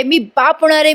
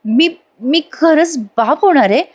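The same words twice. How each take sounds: First: Higher, quicker, jubilant announcement; acted cry of joy from a father-to-be; mock excited shouting. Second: Halting, drawn-out question with a higher pitch; stunned father-to-be, stretching out the words; slow disbelief. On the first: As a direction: proclaim it with glee, without real volume. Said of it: "असं म्हणून मोठ्या मोठ्याने ओरडायला लागतो". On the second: Acted. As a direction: let it dawn slowly, pausing between words. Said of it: "असं slow slow बोलतोय बरं का प्रेक्षकांनो आणि अचानक म्हणतो".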